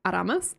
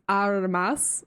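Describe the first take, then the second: First: Aramas, open A sounds, stress on the second syllable; careful name pronunciation. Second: Aramas, drawn out with a long final s; careful name pronunciation. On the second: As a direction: Aramas spoken slowly with a rising end. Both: Shown as a demonstration. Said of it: "Say it with me".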